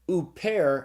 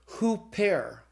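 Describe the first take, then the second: First: The word starts directly with the vowel. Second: The word starts with an H sound. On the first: The word is written without the rough breathing. "if you have the word "uper"" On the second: The word is written with the rough breathing. "you put the rough breathing on it, you pronounce it "hooper.""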